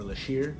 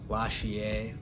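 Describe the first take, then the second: First: It is said with sh and ending in -ir. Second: It is said with sh and ending in -ier.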